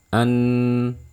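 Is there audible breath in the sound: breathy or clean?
clean. No breath is heard with the syllable. The speaker calls it right. "tidak boleh ada terdengar suara aliran nafas. Kayak gini"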